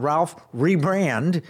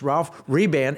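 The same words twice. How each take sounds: First: The surname has an r sound after the b. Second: The surname has no r sound after the b. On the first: The speaker calls it wrong. "It's not Ralph Rebrand" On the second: The speaker calls it right. "It's Ralph Rebrand"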